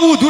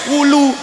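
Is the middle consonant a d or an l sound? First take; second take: d; l. First: The middle consonant is a d sound. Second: The middle consonant is an l sound. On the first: The speaker calls it right. "Dikon ngomong wudu ra iso" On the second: The speaker calls it wrong.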